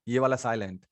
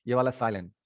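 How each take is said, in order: Both takes have the same delivery.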